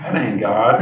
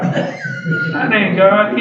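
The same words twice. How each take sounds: First: Said in the usual way. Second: "That ain't God" said higher, louder, much slower with a laugh; emphatic slow repeat. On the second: Shown as a demonstration. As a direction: drag out "That ain't God" high and loud, laughing.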